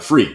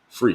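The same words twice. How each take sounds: First: The word is said loudly. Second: The word is said at normal volume.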